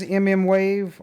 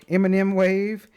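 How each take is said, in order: First: "M M Wave" with both letters named separately; letter-by-letter pronunciation. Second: "M and M Wave" with "and" between the letters; candy-style pronunciation. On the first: Offering viewers a name for the sensor, spelled-out pronunciation. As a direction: say "M M Wave" as two letter names, then wave. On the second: Offering viewers the other name, pronounced with a linking "and". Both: Shown as a demonstration. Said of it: "however you wanna say it".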